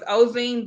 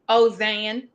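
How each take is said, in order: First: The last vowel sounds like 'ee'. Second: The last vowel sounds like 'ay'. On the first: This is how the family says it now, outside Louisiana. "So now it's Ozine" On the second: This is how it is said in Louisiana. "Ozane, like with an A"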